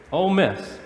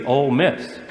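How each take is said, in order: First: "Ole Miss" said softer, pitch falling on "Miss"; settled fall. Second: "Ole Miss" with the pitch rising on "Miss"; questioning rise. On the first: Preacher answers his own "Ole Miss" with a soft, falling close. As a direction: land "Ole Miss" firmly downward, quieter. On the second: Preacher tosses out "Ole Miss" to the congregation with a rising tune. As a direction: let "Ole Miss" lift up at the end like a question. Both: Shown as a demonstration.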